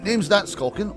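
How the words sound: It is said in an affected character accent. The speaker calls it right. "Maybe the Holmesy voice"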